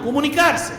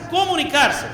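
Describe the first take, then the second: First: Said in the usual way. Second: Comunicarse repeated higher with a firm fall; stress on comunicarse. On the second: Shown as a demonstration. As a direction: drive comunicarse home the second time. (comunicarse, repetido más agudo y firme)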